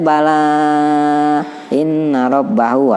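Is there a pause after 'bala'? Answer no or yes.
yes. There is a pause after the first word. "boleh aja"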